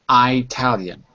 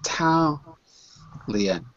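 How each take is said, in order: First: The stress is on the first syllable. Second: The stress is on the second syllable. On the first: Only some speakers in America say it this way. "they separate the I from the rest of the word" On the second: Most speakers say it this way. "Most people will put the stress on the second syllable"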